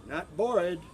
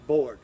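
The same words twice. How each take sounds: First: "bored" with a p and trailing vowel, "pore-ee"; wrong bored. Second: "bored" punched loud with a clear voiced b; correct bored. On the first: Teacher contrasting for students, "pore-ee". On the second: Teacher contrasting for students, loud clean "bored". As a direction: hit "bored" hard and clean. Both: Shown as a demonstration.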